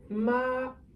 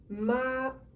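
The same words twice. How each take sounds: Both takes have the same delivery.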